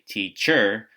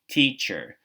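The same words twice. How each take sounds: First: The stress is on the second syllable. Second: The stress is on the first syllable. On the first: The speaker calls it wrong. "We don't say teacher" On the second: The speaker calls it right. "the one that we say louder is T"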